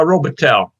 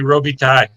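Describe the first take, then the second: First: The name is said with American English sounds. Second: The name is said with French sounds. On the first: "more of the New York's uh, pronunciation than the French pronunciation" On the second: "if I went north of the border, it'd be"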